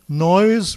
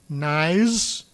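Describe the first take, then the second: First: The vowel is an 'oy' sound. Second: The vowel is an 'eye' sound. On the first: This is the current standard pronunciation. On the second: This is the creole and older British pronunciation.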